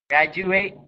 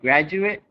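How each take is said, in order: First: The last syllable sounds like 'ate'. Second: The last syllable sounds like 'it'. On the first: It is used as a verb. "verbs on left" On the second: It is used as a noun. "A T E at the end of a noun is pronounced I T"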